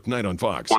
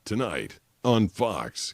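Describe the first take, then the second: First: It is said very quickly and clipped. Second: It is said slowly and drawn out. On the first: It falls well short of the allotted time slot. "you don't want to go ... because that's like one" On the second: It runs over the allotted time slot. "You can't be like, ... because that's like two point three"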